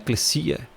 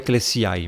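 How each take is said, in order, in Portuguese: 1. A palavra termina com um som de 'a' simples. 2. A palavra termina com o som 'ai' separado. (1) "Então é eclesia. Você não vai dizer o ai no final" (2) "Você não vai falar eclesiai"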